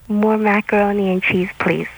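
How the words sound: It is read in a flat, neutral way.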